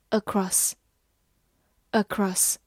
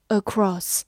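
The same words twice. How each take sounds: First: "Across" with a short final o; short vowel in "Across". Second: "across" with a drawn-out open vowel; long vowel. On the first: Teacher demonstrates across for learners with a short vowel. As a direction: say "Across" slowly, short vowel in second syllable. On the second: Teacher offers learners across with the long vowel. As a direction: lengthen the second vowel of "across". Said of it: "或者读长音". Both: Shown as a demonstration.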